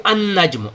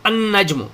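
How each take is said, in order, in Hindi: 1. L silent है और N double होता है। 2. L साइलेंट है और N डबल होता है।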